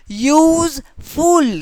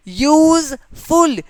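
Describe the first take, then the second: First: Said in the usual way. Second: यूजफुल stretched slowly, each syllable yoo-z-ful sounded apart, pitched higher; syllables drawn out. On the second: Shown as a demonstration. Teacher showing students the syllables of यूजफुल, drawn out slowly. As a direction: pull यूजफुल apart syllable by syllable so every vowel rings out. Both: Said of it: "यू का भी आवाज़ आ रहा है".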